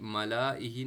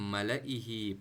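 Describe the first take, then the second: First: The vowel after 'l' is held long. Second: The vowel after 'l' is kept short. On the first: The speaker calls it wrong. "मलाइही नहीं पढ़ना" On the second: The speaker calls it right. "बल्कि मलइही पढ़ना है"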